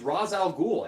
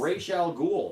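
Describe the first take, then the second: First: The first word is said like 'rahs'. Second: The first word is said like 'raysh'. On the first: The speaker calls it right. "his name is Ra's al Ghul" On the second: The speaker calls it wrong. "They started calling him Raish"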